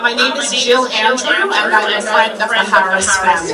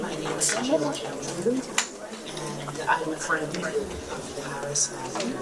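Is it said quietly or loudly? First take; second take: loudly; quietly. First: It is said loudly, in a projected voice. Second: It is said quietly, in a normal voice.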